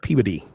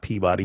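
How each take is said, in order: First: It is said the New England way, squished together. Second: It is said in a general, non-New England way.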